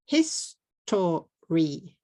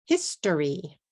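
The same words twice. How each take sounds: First: "History" slowly split into three separate beats; syllable by syllable. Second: Said in the usual way. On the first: Shown as a demonstration. Teacher showing the three syllables of "History", said syllable by syllable. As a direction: break "History" apart as His, to, ry. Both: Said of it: "Three syllables".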